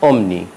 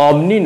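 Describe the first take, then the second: First: অমনি said the right way, falling; অমনি clearly and correctly pronounced; correct pronunciation. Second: অমনি said the mistaken way; অমনি as learners often mispronounce it; wrong pronunciation. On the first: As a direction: model অমনি for students. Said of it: "উচ্চারণ হবে". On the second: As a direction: read অমনি the naive way. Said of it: "নয়". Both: Shown as a demonstration.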